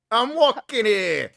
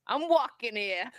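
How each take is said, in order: First: Put-on very slow, much higher and louder New York accent. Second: Put-on slow, drawn-out New York accent. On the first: Cohost shouting her favourite New York phrase, hammed-up. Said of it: "it's my favorite phrase". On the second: Showing off her New York accent to the chat, slowly. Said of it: "New York accent always".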